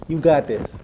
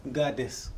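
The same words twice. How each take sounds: First: Much louder, firm and rallying; cheering her on, full voice; loud encouragement. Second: Said in the usual way. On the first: Real, not acted. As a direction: shout it to lift her up. Encouraging a tearful guest.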